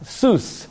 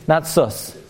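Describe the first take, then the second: First: The vowel is a long 'oo' sound. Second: The vowel is a short 'uh' sound. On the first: The speaker calls it right. "you pronounce it like the medical professional who wrote many nursery rhymes" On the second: The speaker calls it wrong.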